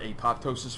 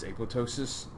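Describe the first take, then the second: First: The second p is clearly sounded. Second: The second p is silent. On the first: "you've heard apoptosis from someone" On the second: "I really think that P should be silent"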